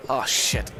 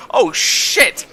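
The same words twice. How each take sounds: First: Said in the usual way. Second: High, loud startled yell; big high-pitched outburst; alarmed shout. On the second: Real, not acted. Startled outburst during the game.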